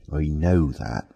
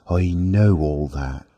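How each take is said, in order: First: Weary sigh through the words. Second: Said in the usual way. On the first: A narrator's reading. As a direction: sigh it out, resigned. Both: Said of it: "sighed Mister Marvel".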